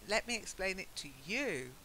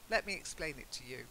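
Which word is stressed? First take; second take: you; explain. First: The stress falls on 'you', not 'explain'. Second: The stress falls on 'explain', not 'you'. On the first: It singles out particular people. The speaker calls it wrong. "Not let me explain it to you" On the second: It refers to the listener in general. The speaker calls it right.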